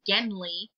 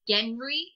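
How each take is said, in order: First: The name is said with an L sound. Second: The name is said with an R sound. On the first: One dialect on the planet says it this way. "one of the dialects pronounces his name Genli with an L" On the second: Another dialect on the planet says it this way. "the other pronounces it Genri with an R"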